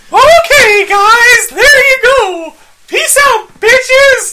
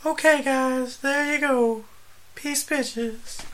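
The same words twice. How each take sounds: First: Squeaky, very high and loud; Mickey Mouse voice. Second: Very high, airy lady voice. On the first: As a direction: go way up into a squeaky cartoon voice. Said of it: "I think I sounded like Mickey Mouse". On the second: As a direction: read it as a breathy lady. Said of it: "Let me read it like a lady". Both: Pretend.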